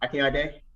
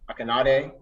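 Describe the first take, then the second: First: The name is said with a Nigerian pronunciation. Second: The name is said with an American pronunciation. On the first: The speaker calls it right. "the Nigerian correct way of saying it" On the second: The speaker calls it wrong. "the way most Americans people say it"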